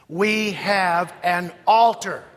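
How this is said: The stress falls on the word altar. "Emphasis on altar"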